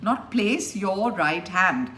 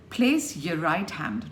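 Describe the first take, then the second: First: Your said fully as yore; full your. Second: Your a weak yuh, Place stressed; reduced your. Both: Shown as a demonstration.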